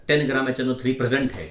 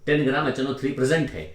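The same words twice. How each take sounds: The two takes are said the same way.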